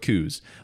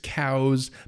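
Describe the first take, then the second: First: The vowel sounds like the one in 'coo'. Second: The vowel sounds like the one in 'cow'. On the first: This is how people in the region say it. "no one in Arizona says cows, so we're just going to go with coos" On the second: This is the proper pronunciation. "the proper pronunciation is cows"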